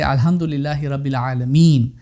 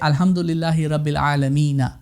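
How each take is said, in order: First: The last word ends on a bare consonant. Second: The last word ends with a short vowel. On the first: The speaker calls it right. "You will say ... and you stop there" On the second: The speaker calls it wrong. "even though there is a fatha on the noon there, you won't say"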